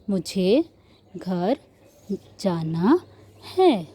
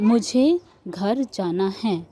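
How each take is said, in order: First: Each word is said slowly with pauses between. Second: The words run together at normal speed. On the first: "एक word बोलना है, फिर pause लेना है, फिर बोलना है" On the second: "तो हम इस तरीके से बोलते हैं"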